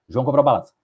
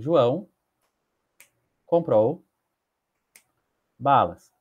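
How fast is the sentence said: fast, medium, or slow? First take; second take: fast; medium. First: The sentence is said very quickly. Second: The sentence is said at moderate speed. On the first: "posso ler em um segundo" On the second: "Posso ler em cinco segundos"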